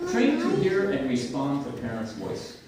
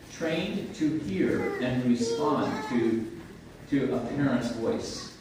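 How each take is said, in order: First: Said in the usual way. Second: Very slow, deliberate restatement; measured teaching delivery with a pause midway; slow emphatic repeat. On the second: Shown as a demonstration. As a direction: let each part of the phrase sink in. Key phrase repeated slowly for emphasis.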